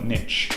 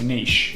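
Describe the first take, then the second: First: The word is said in an American way. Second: The word is said in a British way.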